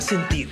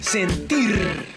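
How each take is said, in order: First: The final r is a soft single tap. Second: The final r is a strong rolled trill. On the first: The speaker calls it right. "esta suena suave" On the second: The speaker calls it wrong. "Si esta se pronunciara fuerte"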